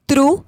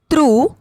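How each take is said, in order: First: त्रु with a short u, rising; त्रु said as quick "tru"; short vowel. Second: त्रु with a held oo; त्रु said as long "trooo"; long vowel. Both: Shown as a demonstration. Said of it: "बारह खड़ी के format में".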